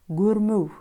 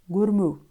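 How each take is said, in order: Both takes have the same delivery.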